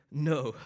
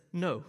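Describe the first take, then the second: First: "No." said with eager, emphatic energy; enthusiastic no. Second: Said in the usual way. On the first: Retold or imitated. Paul rejecting the legalists' claim, eager and emphatic. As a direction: throw real enthusiasm into "No.". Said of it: "yet enthusiastically". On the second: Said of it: "He says it plainly".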